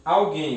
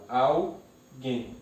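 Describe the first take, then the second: First: Said in the usual way. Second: "alguém" slowly split into al, guém; syllable by syllable. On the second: Shown as a demonstration. Teacher separates the word, "alguém" syllable by syllable. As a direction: break "alguém" with a pause before guém. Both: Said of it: "eu separo".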